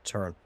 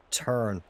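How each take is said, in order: First: Said in the usual way. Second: Urging. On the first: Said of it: "urging the ball again". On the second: Real, not acted. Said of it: "urging the ball, said again".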